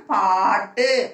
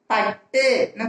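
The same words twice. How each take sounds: First: பாட்டு slowly, with a long held "aa"; long vowel. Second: பட்டுன்னு with a short first "a"; short vowel. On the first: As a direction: stretch the first vowel of பாட்டு. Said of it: "பாய்க்கு துணைக்கால் போட்டு". (பாட்டு நெடிலாக, நீட்டி) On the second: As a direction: keep the opening of பட்டுன்னு brief. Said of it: "துணைக்கால் போட்டு". (பட்டுன்னு குறிலாக, குறுக்கி) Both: Shown as a demonstration.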